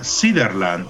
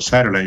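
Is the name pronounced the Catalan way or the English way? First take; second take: Catalan; English. First: The name is pronounced the Catalan way. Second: The name is pronounced the English way.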